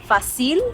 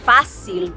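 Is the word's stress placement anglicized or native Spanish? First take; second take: anglicized; native. First: The stress falls where English speakers misplace it. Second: The stress falls where native Spanish speakers place it. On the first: The speaker calls it wrong. "they say fácil" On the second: The speaker calls it right. "instead of saying fácil"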